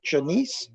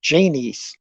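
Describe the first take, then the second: First: Janice? asked with a rising tune, testing the name; tentative name check; unsure Janice. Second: Janice, said firmly with a falling tune; decided name reading; confident Janice. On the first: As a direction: try out Janice? softly, questioning. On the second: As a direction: settle on Janice, flatly. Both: Shown as a demonstration. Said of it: "am I saying that right?".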